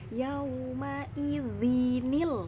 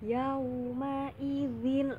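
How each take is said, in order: First: The word ends with an added 'nil'. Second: The word ends plainly on the tanwin 'in'. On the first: This is how it should be read aloud. The speaker calls it right. "Dibacanya yauma idzinil, bukan zin lagi" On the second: This is hard to read aloud. The speaker calls it wrong. "Susah itu dibacanya"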